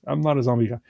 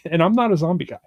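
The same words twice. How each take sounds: First: Said in the usual way. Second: Said through a laugh, a little higher; chuckling as he admits it. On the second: Real, not acted. Host admitting to cohost he's not into zombies, laughing. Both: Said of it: "I don't do zombies".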